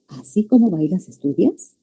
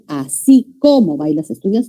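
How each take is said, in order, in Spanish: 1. La palabra 'como' se dice sin énfasis. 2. La palabra 'como' se dice con énfasis fuerte. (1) "Lo que aquí se le está diciendo es" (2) "Si es con tilde, se pronuncia con énfasis"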